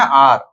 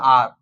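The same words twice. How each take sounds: First: "आर" repeated with a louder stress; hour said as "aar" again, louder. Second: "आर" with a short, clipped vowel; hour said as "aar". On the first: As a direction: say the word "आर" firmly and stressed. ("आर" को ज़ोर देकर दोहराना) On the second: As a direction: say the word "आर" without the w-glide. ("आर" को छोटा, बिना व के बोलना) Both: Shown as a demonstration. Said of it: "या आर भी पढ़ देते हैं".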